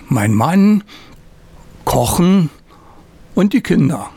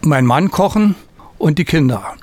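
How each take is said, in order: First: There is a pause after 'Mann'. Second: It is said without a pause after 'Mann'.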